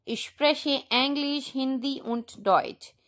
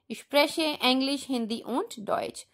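The two takes are said the same way.

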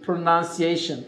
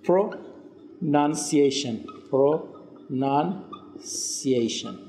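First: Said in the usual way. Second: Very slow PRO-NUN-CI-A-TION, broken by pauses; "pronunciation" drawn out slowly in separate chunks for learners; syllable by syllable. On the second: Shown as a demonstration. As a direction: stretch "pronunciation" out part by part. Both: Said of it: "Repeat after me please".

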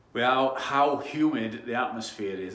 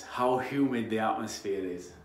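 First: Posh voice. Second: Said in the usual way. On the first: Shown as a demonstration. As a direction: put on a posh accent for "how humid the atmosphere is". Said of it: "That's my posh voice". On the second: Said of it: "hard to say when you're from Yorkshire".

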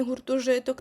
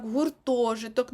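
First: Гуртожиток with the accent off the О, later in the word; quicker mistaken гуртожиток, ТО left unstressed; wrong stress shown. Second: Long stressed ТО in гуртожиток; slow corrected гуртожиток, leaning on О. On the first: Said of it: "а не". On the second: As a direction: stretch the second syllable of гуртожиток. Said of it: "на о". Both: Shown as a demonstration.

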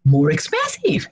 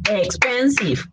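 First: Said in the usual way. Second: "Expensive" in three separate beats, EX-PEN-SIVE; syllable by syllable. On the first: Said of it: "add the word more before". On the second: Shown as a demonstration. Teacher shows three or more syllables, syllable by syllable. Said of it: "Three or more syllables".

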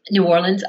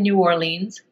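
First: "Orleans" ending in a reduced "lunz"; "Orleans" with an unstressed, short last syllable; short-vowel Orleans. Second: "Orleans" ending in "leenz"; "Orleans" with a long ee in the last syllable. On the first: Corrects her own place-name pronunciation. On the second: Place name said, then corrected. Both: Shown as a demonstration.

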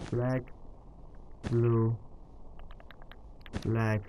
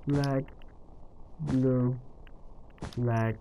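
Both takes have the same delivery.

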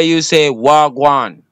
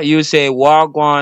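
First: "wagwan" said slowly as wah-gwan in Patois. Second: "wagwan" repeated as wah-gwan, Jamaican Patois. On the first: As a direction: teach "wagwan", slow and clear. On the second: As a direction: model "wagwan" for the listener. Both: Shown as a demonstration. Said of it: "I'm gonna say what's going on in Patois".

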